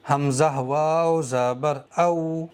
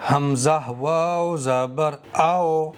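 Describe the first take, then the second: First: "او" said with the maroof au sound, the correct way; correct maroof vowel. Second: "او" said with the majhool o sound, the wrong way; majhool vowel on purpose. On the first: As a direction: read the واو in "او" maroof, as the right version. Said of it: "معروف پڑھنا ہے". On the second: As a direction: give واو in "او" the majhool o, as a deliberate mistake. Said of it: "میں نے اس والے واو کو مجہول پڑھا ہے". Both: Shown as a demonstration.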